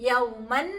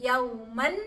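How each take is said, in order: The two takes are said the same way.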